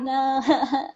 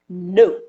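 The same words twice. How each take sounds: First: The no sounds weak and hesitant. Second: The no sounds firm and decisive.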